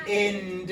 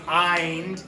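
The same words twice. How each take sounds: First: "ind" with short i as in "it"; short-vowel IND. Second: "eind" with long i as in "ice"; long-vowel IND. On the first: Teacher showing what the letters don't say, short-vowel "ind". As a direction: say "ind" with a short i, the wrong reading. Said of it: "This doesn't say ind". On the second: Teacher showing the other reading of the letters, long-i "eind". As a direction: say "eind" to rhyme with "signed". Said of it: "it can also say eind". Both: Shown as a demonstration.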